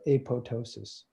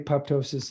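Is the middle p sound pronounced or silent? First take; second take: silent; pronounced. First: The middle p sound is silent. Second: The middle p sound is clearly pronounced. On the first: The speaker calls it right. "It's apoto, apoptosis" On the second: The speaker calls it wrong. "it's spelled apoptosis, but it's not pronounced that way"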